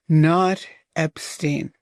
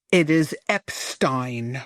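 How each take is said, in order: First: Epstein said as "Ep-steen", the way she said it; quoting the mistaken "Ep-steen" back; [name]'s wrong take. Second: Epstein said as "Ep-stine", rhyming with fine; lower, slow, setting "Ep-stine" straight; [name]'s correct name. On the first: [name] repeating the girl's wrong "Ep-steen". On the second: [name] correcting a fan, lower "Ep-stine". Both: Retold or imitated.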